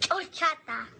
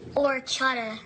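First: It is said with a Mexican Spanish accent. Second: It is said with an American English accent.

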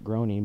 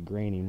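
First: The name does not rhyme with 'raining'. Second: The name rhymes with 'raining'. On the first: The speaker calls it wrong. "a lot of people pronounce it Groening" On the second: The speaker calls it right. "but it's actually Groening, which reminds me of Portland's raining"

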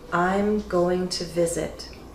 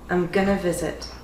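First: Going to is said fully, slowly and carefully. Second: Going to is reduced to gonna. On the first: "Slow and careful speech" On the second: "What you're going to hear often is gonna"

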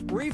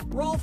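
First: It has the vowel of 'leaf' without an L. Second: It has the vowel of 'golf' with an L.

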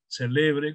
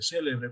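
First: The stress is on the middle syllable. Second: The stress is on the first syllable. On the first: "como palabra grave" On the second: "como esdrújula"

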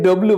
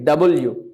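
First: The letter is said as a short 'dobliu'. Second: The letter is said as full 'double you'. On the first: The speaker calls it wrong. "আমরা আগে এটাকে ডব্লু বলতাম" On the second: The speaker calls it right. "But it will be ডাবল ইউ"

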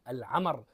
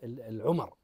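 First: The first two vowels are both 'a'. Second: The first two vowels are not both 'a'. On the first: The speaker calls it right. "بفتح العين والميم" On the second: The speaker calls it wrong. "وليس"

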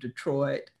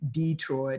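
First: It has the standard vowel emphasis. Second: It has the vernacular vowel emphasis. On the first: "instead of" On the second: "The emphasis on certain vowel sounds"

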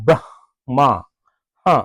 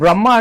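First: The name ends with a breathy h sound. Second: The name ends plainly with no h sound. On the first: The speaker calls it right. "దేవుని పేరును పవిత్రంగా పిలవాలి" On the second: The speaker calls it wrong. "మనం బ్రహ్మ అంటాం, బ్రహ్మ కాదు"

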